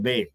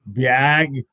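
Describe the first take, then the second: First: The vowel sounds short, close to 'eh'. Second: The vowel is drawn out into a glide. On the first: This is how northerners say it. "The A's are pronounced like E's up here" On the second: This is how southerners say it. "down south the A's are pronounced like three A's"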